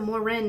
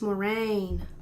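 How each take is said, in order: First: The name ends with a short 'rin' sound. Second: The name ends with a long 'rain' sound. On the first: The speaker calls it wrong. "Instead of Morin" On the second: The speaker calls it right. "it's Moraine"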